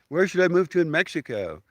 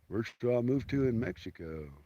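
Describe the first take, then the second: First: It is said in a plain voice. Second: It is said in a dumb guy voice.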